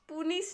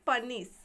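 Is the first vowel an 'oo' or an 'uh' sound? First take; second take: oo; uh. First: The first vowel is an 'oo' sound. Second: The first vowel is a short 'uh' sound. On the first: The speaker calls it wrong. "पुनिश हमारा गलत हो जाएगा" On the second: The speaker calls it right. "पनिश हमारा सही है"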